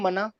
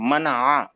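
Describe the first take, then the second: First: The word ends with a plain vowel, no ayn. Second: The word ends with a throaty ayn sound. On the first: The speaker calls it wrong. "Urdu में मना मालूम है ... हम लोग अलिफ से पढ़ते हैं" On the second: The speaker calls it right. "लेकिन ऐन से पढ़ना है उसको"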